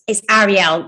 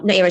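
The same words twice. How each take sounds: First: "Ariel" with an open first vowel, "ARR-ee-el"; correct pronunciation. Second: "Ariel" said like "aerial", AIR-ee-el; wrong pronunciation. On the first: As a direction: say "Ariel" starting with a short open A. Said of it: "Just so you know, it is". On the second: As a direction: open "Ariel" with an AIR vowel. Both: Retold or imitated.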